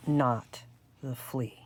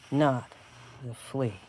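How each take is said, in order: Both takes have the same delivery.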